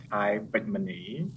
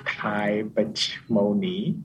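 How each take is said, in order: First: Name said in a Cambodian accent. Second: Slow name in an English accent. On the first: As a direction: pronounce the name the native Cambodian way. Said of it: "in a Cambodian accent". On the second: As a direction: pronounce the name slowly, English-style. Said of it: "If I say it in English accent". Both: Shown as a demonstration.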